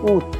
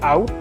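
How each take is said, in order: First: It is said with the French vowel sound. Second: It sounds like the English word out. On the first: The speaker calls it right. "it's août" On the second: The speaker calls it wrong. "It's not out"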